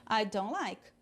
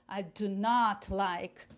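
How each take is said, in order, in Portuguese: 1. A negação é dita de forma leve e natural. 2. A palavra não é dita com ênfase forte. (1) "Mas eu quero falar normalmente. ... naturalmente" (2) "Fica um ênfase no não. ... Aí eu dei ênfase"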